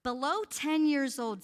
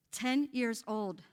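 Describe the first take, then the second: First: Said in the usual way. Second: Each word set apart, slowly; a slow, heavy repeat for the congregation; slow emphatic repeat. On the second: Shown as a demonstration. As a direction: let ten years old sink in slowly. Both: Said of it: "But look at the age group".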